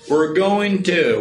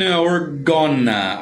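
First: Going to is said fully as separate words. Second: Going to is blended into the short gonna. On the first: "quando você pronuncia we're going to" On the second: "aí surgiu gonna"

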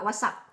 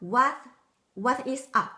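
First: The words are shortened and said quickly. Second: Each word is said fully and separately. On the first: "เราพูดสั้นๆพูดเร็วๆว่า" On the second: "มันมาจากคำว่า"

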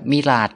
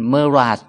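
First: The first syllable has an 'i' vowel. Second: The first syllable has an 'e' vowel. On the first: This is the form the audience is used to. "เราคุ้นกับมิราจมากกว่า" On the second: This is how native speakers say it. "เขาจะออกเสียงเป็นเมราจ"

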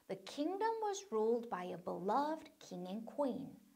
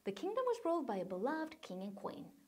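First: It is said slowly and carefully. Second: It is said more quickly.

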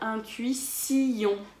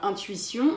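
First: The vowels 'u' and 'i' are split apart. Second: The vowels 'ui' are joined in one syllable. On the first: "on va dire intuition" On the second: "Au lieu de dire intuition"

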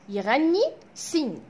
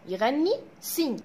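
The two takes are said the same way.

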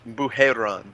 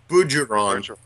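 First: The name is said with French-style sounds. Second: The name is said with English-style sounds. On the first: The speaker calls it right. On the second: The speaker calls it wrong.

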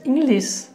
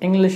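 First: It is said with a mother-tongue-influenced pronunciation. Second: It is said with standard English pronunciation. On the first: The speaker calls it wrong. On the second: The speaker calls it right.

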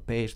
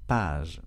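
First: The vowel is an 'ay' sound. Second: The vowel is an open 'ah' sound.

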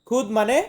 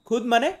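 No difference in how they are said.

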